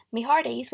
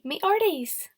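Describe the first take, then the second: First: Said in the usual way. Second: "me hearties" said as "me 'earties", no H, pitched higher and louder; pirate dropped H. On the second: Shown as a demonstration. Teacher demonstrating pirate talk to pupils, "hearties" without the H. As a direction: drop the H in "hearties" like a playful pirate. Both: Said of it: "Don't say the letter H in any words".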